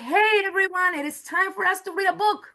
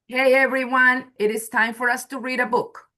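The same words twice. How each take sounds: First: The tone is lively and enthusiastic. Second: The tone is flat and unexcited. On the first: It invites the children to read. "So which one is more like an invitation? The second one, of course" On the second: It is a plain announcement. "That's a way you can say it"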